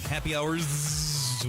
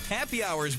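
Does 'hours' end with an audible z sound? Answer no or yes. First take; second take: yes; no. First: The word ends with a clear z sound. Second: The word ends without a clear z sound. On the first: The speaker calls it right. "with a Z sound at the end there" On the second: The speaker calls it wrong. "why do they call it happy hour?"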